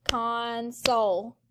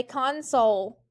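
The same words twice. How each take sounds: First: "console" slowly in two beats; syllable by syllable. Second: Said in the usual way. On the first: Shown as a demonstration. Teacher has students clap it, "console" slow and syllable by syllable. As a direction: draw out each syllable of "console". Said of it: "Clap it". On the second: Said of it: "everyone say console".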